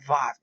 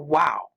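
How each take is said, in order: First: The word begins with a V sound. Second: The word begins with a W sound. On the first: This is the modern pronunciation. The speaker calls it wrong. "They call it vav today" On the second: This is the older pronunciation. The speaker calls it right. "It's a wow"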